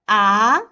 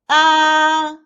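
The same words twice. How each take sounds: First: The pitch rises from middle to high. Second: The pitch stays high and level. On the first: "The second tone is the rising tone" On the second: "The first tone is the highest and flat"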